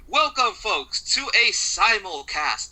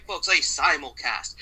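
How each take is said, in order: First: Slow, stretched hype on simulcast; slow, drawn-out announcer hype on "simulcast". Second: Said in the usual way. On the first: Acted.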